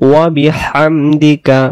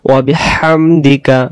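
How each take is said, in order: Both takes have the same delivery.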